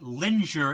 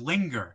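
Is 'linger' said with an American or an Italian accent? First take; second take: Italian; American. First: It is said with an Italian-accented pronunciation. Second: It is said with a standard American pronunciation. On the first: Someone else said it, mispronouncing the word. The speaker calls it wrong. "she would say linger instead of" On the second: This is the usual pronunciation of the word. The speaker calls it right. "instead of linger"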